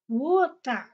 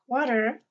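First: The middle sound is a clear 't'. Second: The middle sound is a soft, d-like flap. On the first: It is the British way. "we live in England, so she says water" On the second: It is the American or Canadian way. "I tell my daughter to say water"

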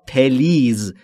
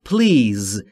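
First: An extra short 'e' vowel separates the p and l. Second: The p and l join with no vowel between. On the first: The speaker calls it wrong. "یا پلیز. این دو تلفظ اشتباهه" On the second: The speaker calls it right. "تلفظ درست به این صورته please. بین P و L صدایی وجود نداره"

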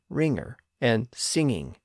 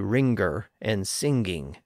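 First: The ng is said without a hard G. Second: A hard G is heard after the ng. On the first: "the hard G sound usually disappears, as in" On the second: "as opposed to"

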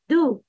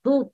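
First: The sound is light. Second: The sound is heavy. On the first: The speaker calls it right. "Pronounce that with a light tone. It's a do" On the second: The speaker calls it wrong. "not do"

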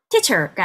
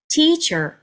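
First: The first syllable's vowel is short. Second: The first syllable's vowel is lengthened. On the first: The speaker calls it wrong. "teacher가 아니라" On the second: The speaker calls it right. "앞에 첫 음절의 모음에 살짝 길이감을 더합니다"

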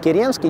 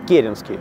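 First: The stress is on the second syllable. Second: The stress is on the first syllable. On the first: The speaker calls it wrong. "его часто называют неправильно Керенский" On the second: The speaker calls it right. "ударение на первый слог"

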